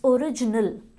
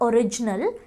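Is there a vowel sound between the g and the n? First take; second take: yes; no. First: A short vowel is heard between g and n. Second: The g runs straight into the n. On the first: The speaker calls it right. "इट्स ओरिजिनल" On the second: The speaker calls it wrong. "But it's not ओरिजिनल"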